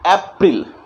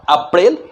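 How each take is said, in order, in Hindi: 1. यह अंग्रेज़ी उच्चारण में बोला गया है। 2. यह हिंदी उच्चारण में बोला गया है।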